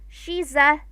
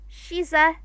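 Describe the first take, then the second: The two takes are said the same way.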